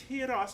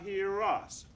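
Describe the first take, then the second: First: The words are separate with no linking r. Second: A linking r joins the words like 'Russ'. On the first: The speaker calls it right. "it's hear us" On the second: The speaker calls it wrong. "not hear us"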